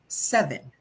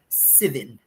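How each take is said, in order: First: It is said in a Philippine English accent. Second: It is said in a New Zealand accent. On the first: "In the Philippines, we typically say seven" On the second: "in New Zealand, they say seven"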